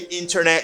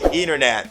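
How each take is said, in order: First: The T after N is clearly pronounced. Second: The T after N is dropped. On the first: The speaker calls it wrong. "you don't say" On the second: The speaker calls it right. "you just say"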